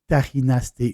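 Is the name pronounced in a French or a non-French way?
non-French. The name is pronounced with non-French sounds.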